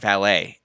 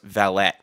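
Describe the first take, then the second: First: The final T is silent. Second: The final T is sounded. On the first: The speaker calls it wrong. "we dropped the T for valet" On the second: The speaker calls it right. "it's actually pronounced valet. you say the T in it"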